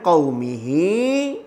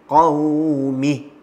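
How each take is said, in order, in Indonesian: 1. Kata ini berakhir dengan h lalu i. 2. Kata ini berakhir dengan bunyi h mati. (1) "Jangan qaumihi" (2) "Matikan ha dengan betul-betul"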